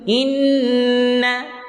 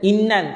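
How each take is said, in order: First: The n is held with a long nasal hum. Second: The n is short with no nasal hum. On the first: The speaker calls it right. "Dengung dua harakat" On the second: The speaker calls it wrong. "Tak nak. Salah"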